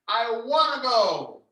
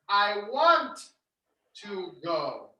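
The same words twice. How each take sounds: First: 'Want to' is reduced to 'wanna'. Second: 'Want to' is said in full.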